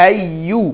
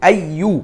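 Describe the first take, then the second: The two takes are said the same way.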